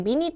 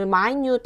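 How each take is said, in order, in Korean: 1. 강세는 첫 번째 음절에 있어요. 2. 강세는 두 번째 음절에 있어요. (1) "minute 하면 안 되고" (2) "발음을 minute 하고 발음해줘야 돼"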